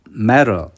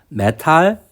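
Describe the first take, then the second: First: It is said with an English accent. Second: It is said with a Japanese-style accent. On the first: The speaker calls it right. "두 번째는 어, 영어 발음으로" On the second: The speaker calls it wrong. "앞에 발음은 그냥 일본어적으로 읽는 거고"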